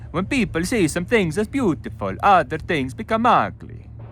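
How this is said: It is read in an Italian accent. "You can do Italian"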